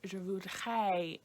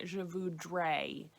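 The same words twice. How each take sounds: First: "je voudrais" with the R breathed out like an H, slow; soft H for R. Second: "je voudrais" with a full throaty French R, slow. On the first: Teacher showing the easier version, slow H-like R. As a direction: soften the R in "voudrais" into an H. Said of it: "is almost a better way". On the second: Teacher contrasting the standard R, slowly. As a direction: give "voudrais" its real guttural R. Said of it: "a better way than saying". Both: Shown as a demonstration.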